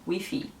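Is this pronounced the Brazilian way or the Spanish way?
Spanish. It is said with a Spanish-style pronunciation. "elas falam Wi-Fi, a maioria"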